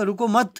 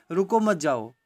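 First: "रुको मत" as one louder, higher unit, then a break; pause after मत. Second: Said in the usual way. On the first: Shown as a demonstration. Teacher shows the meaning "go", रुको मत joined before a pause. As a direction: run रुको into मत, then stop. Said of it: "फिर रुकता हूँ मैं". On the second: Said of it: "अगर मैं कहता हूँ".

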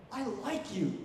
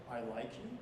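First: "I" stressed, falling on "like you". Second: "you" stressed with a rising tune, lower and softer. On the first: Teacher showing stress on "I" changes meaning. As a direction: hit the word "I". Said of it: "So it's like if I say". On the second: Teacher showing stress on "you" changes meaning. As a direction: lean on "you" and lift it. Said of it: "or I could say". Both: Shown as a demonstration.

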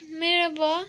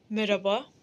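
First: Said in the usual way. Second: Lower, formal polite hello; a hint of a courteous gent; gentlemanly greeting. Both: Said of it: "efendi diye konuşuyordun".

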